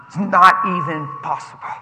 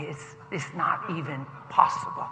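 First: NOT said firmly at normal volume; emphatic repeat. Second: Soft, low, measured delivery; gentle assurance. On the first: Preacher repeating his promise for emphasis, firm "not". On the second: Passenger reassuring a stressed dad, soft and low. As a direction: say it quietly and sincerely. First take of repeated reassurance. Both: Retold or imitated.

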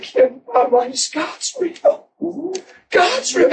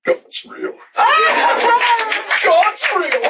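First: Ecstatic, rising. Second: High, laughing, half-shouted joy; giddy joyful laughing. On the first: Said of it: "I said". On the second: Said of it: "I'm standing there like this". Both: Retold or imitated.

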